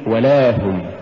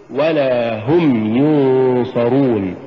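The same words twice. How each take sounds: First: ولا run together, no push on ل; wrong stress. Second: ولا هم slow, و set apart and لا pushed; push after waw. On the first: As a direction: say ولا هم quicker, weight on the و. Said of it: "ولا تقل". (نطق ولا هم دون دفع اللام) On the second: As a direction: lean on the ل and draw out ولا. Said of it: "قل". (نطق ولا هم ببطء مع دفع اللام) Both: Shown as a demonstration.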